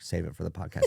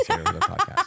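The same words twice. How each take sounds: First: Laughing quote. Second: Much higher, laughing mock of a friend; mimicking Des in a high giggle; squeaky laughing imitation. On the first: Retold or imitated. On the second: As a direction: squeak the quote out through a laugh. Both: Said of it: "Des was like".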